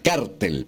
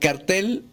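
First: The stress is on the first syllable. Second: The stress is on the last syllable. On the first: An illicit criminal organization. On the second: A poster or public notice.

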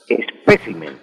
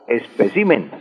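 First: The stress is on the syllable pe. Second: The stress is on the syllable ci. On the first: The speaker calls it right. "espécimen con acento en la segunda E" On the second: The speaker calls it wrong. "y no"

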